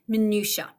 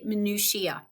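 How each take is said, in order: First: It is said without an extra final syllable. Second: It is said with an extra final syllable. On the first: "In British English, you will likely say" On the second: "In American English, you will probably say minutiae, adding that extra syllable on the end"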